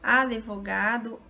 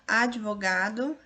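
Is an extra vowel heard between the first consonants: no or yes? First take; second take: yes; no. First: A vowel is inserted between the d and v. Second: No vowel is inserted between the d and v. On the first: This is an informal spoken variant. "a forma variante oral" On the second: This is the formal standard form. "a forma culta"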